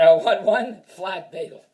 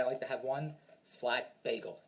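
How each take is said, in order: First: I want one flat bagel, slow and louder, each word hit; loud slow insistence. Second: Said in the usual way. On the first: Shown as a demonstration. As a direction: plant your feet and demand the bagel. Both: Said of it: "I'm kidding".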